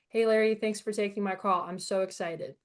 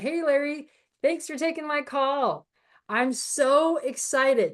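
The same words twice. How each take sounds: First: It is said flatly, as if being read. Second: It is said with lively, excited energy.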